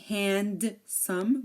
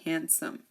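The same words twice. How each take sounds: First: A distinct D sound is pronounced. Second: No D sound is pronounced. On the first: The speaker calls it wrong. "We don't say handsome" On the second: The speaker calls it right. "We say handsome. The D is silent here"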